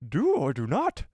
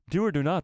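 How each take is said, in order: First: It is said in a Yoda impression. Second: It is read in his normal voice.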